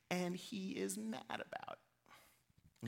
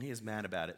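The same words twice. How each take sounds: First: And he is mad about it, said at half speed and much softer, stretching mad; slow, soft drawn-out emphasis. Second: Said in the usual way. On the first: Shown as a demonstration. Preacher dwelling on Jonah's anger: slow, hushed stress. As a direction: drag the words out quietly.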